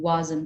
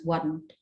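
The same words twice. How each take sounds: First: The s sound in the word is kept. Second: The s sound in the word is dropped. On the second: "becomes wasn't"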